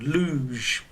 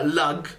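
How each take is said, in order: First: The word ends with a soft zh sound. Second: The word ends with a hard g sound. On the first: The speaker calls it right. "this one is more of a j sound" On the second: The speaker calls it wrong. "We don't say uh"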